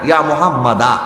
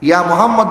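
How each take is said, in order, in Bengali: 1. নামটি দীর্ঘ 'a' স্বরধ্বনি দিয়ে শেষ হয়। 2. নামটি ব্যঞ্জন 'd' দিয়ে শেষ হয়। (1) "এখানে দালের পর একটা আলিফ আছে" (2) "ইয়া মুহাম্মদ বলে না"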